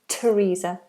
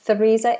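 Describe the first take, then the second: First: It begins with a plain t sound. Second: It begins with a th sound, tongue between teeth. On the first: The speaker calls it right. "the T H becomes a T" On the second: The speaker calls it wrong. "I hear a lot of students say Theresa, but it's not Theresa"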